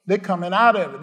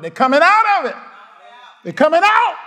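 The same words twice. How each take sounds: First: Said in the usual way. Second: Louder and higher, triumphant; crowd-rousing preacher cry; rising shout. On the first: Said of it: "repeated declaration, first take". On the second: Real, not acted. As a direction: lift the repeat into a shout. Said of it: "repeated declaration, built up".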